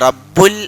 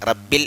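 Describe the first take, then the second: First: The vowel after rabb is u. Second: The vowel after rabb is i. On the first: The speaker calls it wrong. "കസ്ർ കൊടുക്കേണ്ടടുത്ത് ലൊമ്മ കൊടുത്തു" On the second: The speaker calls it right. "എന്നോതൻ്റെ അടുത്ത്"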